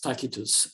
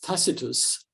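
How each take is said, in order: First: It is said in a reconstructed classical Latin way. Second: It is said in the common modern English way. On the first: This is how Romans likely said it. "I believe it was Tacitus during the Roman period" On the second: This is how most people say it today. "widely pronounced as Tacitus"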